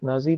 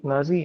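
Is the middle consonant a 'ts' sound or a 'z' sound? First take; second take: z; z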